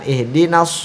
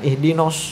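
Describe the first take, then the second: First: The last vowel is a clear open a. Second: The last vowel is rounded toward o. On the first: The speaker calls it right. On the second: The speaker calls it wrong.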